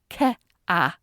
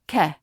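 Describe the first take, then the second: First: The vowel splits into two separate syllables. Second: The vowel is one flat vowel without glide. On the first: "as two distinct syllables rather than a smooth glide" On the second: "a single vowel closer to the air in bed"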